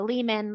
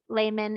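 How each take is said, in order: First: The first syllable does not rhyme with 'day'. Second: The first syllable rhymes with 'day'. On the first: This is how other families say the name. "like your other families do" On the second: This is the German way of saying the name. "which is how the Germans would pronounce it. So that E H is pronounced like an A"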